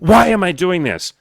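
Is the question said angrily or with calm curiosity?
angry. It sounds angry, like yelling at oneself. It is self-blame rather than a real question. The speaker calls it wrong. "That's an angry, yelling at yourself statement"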